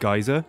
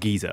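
First: The word does not sound like 'geezer'. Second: The word sounds like 'geezer'. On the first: The speaker calls it right. "I pronounce it geyser" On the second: The speaker calls it wrong. "I don't actually say geyser as geezer"

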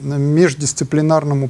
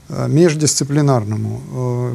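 First: The word is said at normal speed. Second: The word is said more slowly.

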